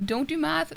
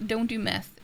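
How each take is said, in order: First: "math" said as mæθ, open a; math with short a. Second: "meth" said as mɛθ, e as in bed. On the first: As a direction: say "math" with the a of cat. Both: Shown as a demonstration. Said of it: "You misheard me".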